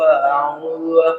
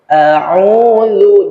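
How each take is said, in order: First: The word is slurred and dragged carelessly. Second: The word is articulated fully and clearly. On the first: The speaker calls it wrong. "menyepelekan, menyeret-nyeret" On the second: The speaker calls it right. "jelas dia"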